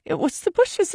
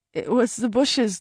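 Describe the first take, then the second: First: Much higher, crying out; desperate cry. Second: Slow, pleading explanation; slow desperate plea. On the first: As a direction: cry it out, frantic to be believed. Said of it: "I cried". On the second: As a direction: drag it out, begging to be believed. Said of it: "I sounded like a loon". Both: Acted.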